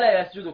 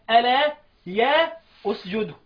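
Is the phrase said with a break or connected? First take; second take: connected; break. First: The words run together without any break. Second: There is a break after 'ya' before the verb. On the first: "تسمعها ألا يسجدوا كده" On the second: "اقف تعليميا"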